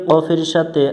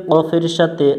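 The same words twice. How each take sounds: The two takes are said the same way.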